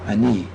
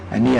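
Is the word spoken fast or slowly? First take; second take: slowly; fast. First: The word is spoken slowly and deliberately. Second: The word is spoken quickly, at speed. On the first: "a little methodically slow" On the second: "now a little faster"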